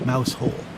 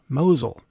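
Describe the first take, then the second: First: It sounds like the words 'mouse hole'. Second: It sounds like 'mowzel', two short syllables. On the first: The speaker calls it wrong. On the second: The speaker calls it right.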